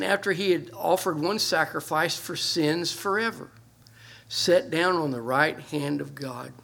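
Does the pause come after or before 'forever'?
after. The pause comes after the word forever. The sacrifice for sins lasts forever. "The way we read it"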